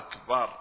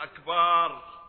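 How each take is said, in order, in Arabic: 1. الحركة بعد الباء قصيرة. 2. الحركة بعد الباء طويلة. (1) "فالصحيح أن يقول الإنسان الله أكبر" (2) "فيتحول الباء بعد الباء إلى ألف فتصير أكبار"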